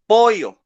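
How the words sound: It is said in a Peruvian accent. "she's from Peru, and she says pollo"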